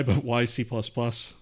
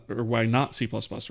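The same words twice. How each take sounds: First: Said in the usual way. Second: Not stressed and falling in "why not C plus plus". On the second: Real, not acted. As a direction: lean into not to correct the question.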